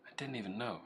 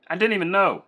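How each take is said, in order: First: Soft, muttered to self; quiet. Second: Loud, surprised exclamation. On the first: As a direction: drop it right down, quiet. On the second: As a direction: let it burst out loud. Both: Real, not acted. Repeats line, loud then soft.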